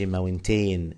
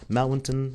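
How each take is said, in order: First: The last syllable is a long 'teen' sound. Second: The last syllable is short and reduced. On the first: The speaker calls it wrong. "يا ريت يا شباب ما نقولهاش ماونتين" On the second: The speaker calls it right. "it must be mountain"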